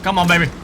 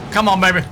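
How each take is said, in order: Both takes have the same delivery.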